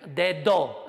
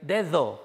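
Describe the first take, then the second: First: The middle d is a full stop closure. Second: The middle d is produced with friction. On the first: The speaker comes from a language without this weakening. The speaker calls it wrong. "yo voy a tender a decir" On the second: The speaker pronounces it as native speakers do. The speaker calls it right. "en lugar de decir"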